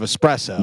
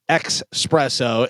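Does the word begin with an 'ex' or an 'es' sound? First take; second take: es; ex. First: The word begins with an 'es' sound. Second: The word begins with an 'ex' sound. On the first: The speaker calls it right. "instead of espresso" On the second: The speaker calls it wrong. "saying espresso instead of"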